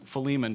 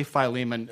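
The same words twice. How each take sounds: First: "Philemon" said fuh-LEE-mun; proper pronunciation. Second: "Philemon" said FYE-lee-mun, Texas version. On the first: Preacher giving the proper form, "Philemon" as fuh-LEE-mun. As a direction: say "Philemon" with stress on LEE after a weak fuh. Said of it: "properly pronounced Philemon". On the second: Preacher excusing his Texas version, "Philemon" as FYE-lee-mun. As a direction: say "Philemon" starting like "file". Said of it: "that's just my Texas version". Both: Shown as a demonstration.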